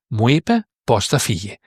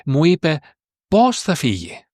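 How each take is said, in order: First: Said in the usual way. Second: "πως" set off by a pause and pitched high; pause, then punch "πως" high; stress on πως. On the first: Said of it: "the one is not emphasized". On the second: Shown as a demonstration. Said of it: "this how is emphasized".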